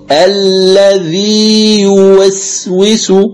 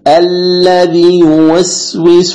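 First: The long vowel is held two counts without merging. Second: The long vowel is dropped entirely before the next word. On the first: The speaker calls it right. "أن تمكن المد دون إدغام" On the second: The speaker calls it wrong. "إسقاط كلي"

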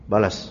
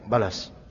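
First: It is said in a defiant, challenging tone. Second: It is said in a humble, apologetic tone. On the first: The speaker dares the other to strike back. The speaker calls it wrong. "Berani enggak lo? Enggak gitu, bukan gitu" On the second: The speaker admits fault and accepts retaliation. The speaker calls it right. "Oh, salah ya saya"

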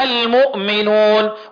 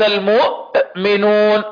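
First: The glottal stop is light and natural. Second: The glottal stop is heavily forced and exaggerated. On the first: The speaker calls it right. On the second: The speaker calls it wrong.

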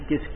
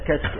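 First: The first vowel is a short 'i' sound. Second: The first vowel is an open 'a' sound. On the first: This is the everyday Egyptian form. "عند المصريين كشك بكسر الكافية" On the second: This is the correct classical form. "فلعل اللغة الصحيحة فيها كشك"

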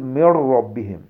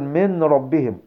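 First: The n sound merges fully into the r. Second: The n sound is pronounced clearly before r. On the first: The speaker calls it right. "قل من ربهم" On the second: The speaker calls it wrong. "لا تقل من ربهم"

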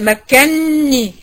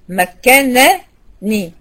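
First: One long doubled n sound is pronounced. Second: Two separate n sounds are pronounced. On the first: "بالتشديد" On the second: "كانت نونين، نون مفتوحة ونون مكسورة"

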